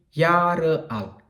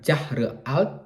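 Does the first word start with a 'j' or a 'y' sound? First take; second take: y; j. First: The first word starts with a 'y' sound. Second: The first word starts with a 'j' sound. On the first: The speaker calls it right. "tapi Jahre alt. Ingat, J dieja J atau atau dibaca Y" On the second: The speaker calls it wrong. "Bukan Jahre alt"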